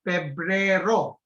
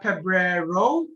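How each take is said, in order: First: The stress falls on the last syllable. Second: The stress falls before the last syllable. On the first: The speaker calls it right. "you need to put a strong accent on the last syllable" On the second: The speaker calls it wrong. "Not febrero"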